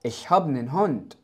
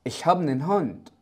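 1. يتقلص einen إلى صوت n مجرد. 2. يتقلص einen إلى صوت n مجرد.

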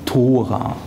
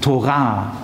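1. Die Betonung liegt auf der ersten Silbe. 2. Die Betonung liegt auf der zweiten Silbe. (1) "sagt bitte nicht Tora" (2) "Immer Ton auf der zweiten Silbe bitte"

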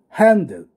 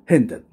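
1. 最初の母音は a に向かって大きく開きます。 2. 最初の母音は閉じた e の音です。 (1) "スイス式は、R にE を足すので、少しあ開け気味" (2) "ドイツ式はそのままですね"

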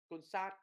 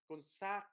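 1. Nguyên âm được nhấn nghe như 'a' ngắn. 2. Nguyên âm được nhấn nghe như 'a' ngắn.

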